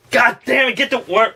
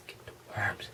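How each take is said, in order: First: Frustrated shout. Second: Hushed urgent whisper. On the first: Snapping in the skit to get the worm. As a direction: blurt it out in annoyance. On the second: Whispering in the skit about the worms. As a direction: breathe it out with no voice. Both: Acted.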